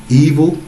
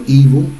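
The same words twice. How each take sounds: The two takes are said the same way.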